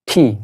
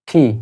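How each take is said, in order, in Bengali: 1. T উচ্চারণটি aspirated, মুখ থেকে বাতাসের ফুঁসহ। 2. T উচ্চারণটি অ্যাসপিরেটেড, মুখ থেকে বাতাসের ফুঁসহ।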